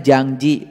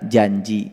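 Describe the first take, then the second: First: It has an 'ng' sound before the 'j'. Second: It has no 'ng' sound before the 'j'. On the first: This is the Sundanese form. "Kalau orang Sunda bilangnya jangji pakai ang" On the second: This is the Indonesian form. "Kalau bahasa Indonesia janji"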